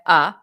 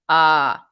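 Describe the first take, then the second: First: The vowel is short and clipped. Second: The vowel is held long. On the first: "It's like you have a" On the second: "you like hold it"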